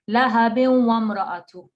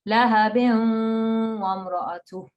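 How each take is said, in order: First: The nasal sound into wa is cut short. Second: The nasal sound into wa is held long. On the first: The speaker calls it wrong. "it's not lahabin wa mra'atu. No, you've got to not just stress on the wa" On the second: The speaker calls it right. "you've got to hold it for two because of the ghunna"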